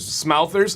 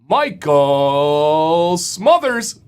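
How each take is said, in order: First: The first vowel sounds like the vowel in 'mouth'. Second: The first vowel sounds like the vowel in 'mother'. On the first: The speaker calls it wrong. "it does look like mouth" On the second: The speaker calls it right. "Smothers is better"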